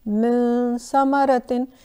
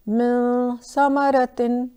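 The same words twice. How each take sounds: Both takes have the same delivery.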